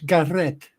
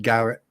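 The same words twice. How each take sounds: First: The name is said in a Welsh accent. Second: The name is said in a plain accent.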